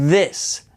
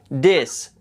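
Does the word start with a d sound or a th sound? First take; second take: th sound; d sound. First: It starts with a th sound. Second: It starts with a d sound. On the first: The speaker calls it right. "poniendo la lengua en medio de los dientes" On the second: The speaker calls it wrong. "lo pronuncian con una D"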